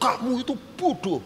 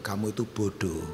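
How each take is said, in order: First: It is said in a harsh, insulting tone. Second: It is said in a gentle, mild tone. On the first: The listener will feel insulted and get angry. The speaker calls it wrong. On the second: The listener is corrected without being offended. The speaker calls it right.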